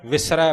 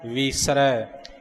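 First: The first vowel is a short 'i' sound. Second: The first vowel is a long 'ee' sound. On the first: "ਇੱਥੇ ਸਿਹਾਰੀ ਆਈ ਹੈ" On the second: "ਜਿੱਥੇ ਬਿਹਾਰੀ ਹੈ"

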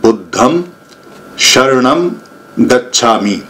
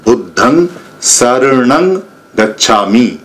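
First: The middle word begins with an sh sound. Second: The middle word begins with an s sound. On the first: This is the Sanskrit form. "ये है संस्कृत भाषा में" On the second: This is the Pali form. "ये शय की आवाज नहीं आएगी, सह की आवाज आएगी"

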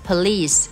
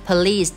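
First: The stress is on the second syllable. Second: The stress is on the second syllable.

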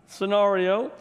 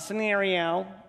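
First: The middle vowel is an emphasized 'a' sound. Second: The middle vowel is not a clear 'a' sound. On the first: The speaker calls it right. "It's with an A. Scenario. So that's why I'm overemphasizing it" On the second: The speaker calls it wrong. "It's not scenario"

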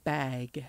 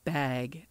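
First: The vowel is open, carefully pronounced. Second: The same.

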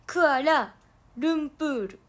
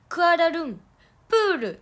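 First: The word splits after 'Kuala', before 'lumpur'. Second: The word splits after 'Kualarun', before 'pur'. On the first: The speaker calls it right. "クアラルンプールらしいよ" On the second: The speaker calls it wrong. "クアラルンプールじゃなくて"

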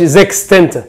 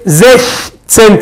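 First: The first syllable ends in a 'ks' sound. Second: The first syllable has no 'ks' sound. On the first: The speaker calls it wrong. "ما قلتش زكس تسنت" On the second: The speaker calls it right. "خلي بالك انا قلت ايه؟"

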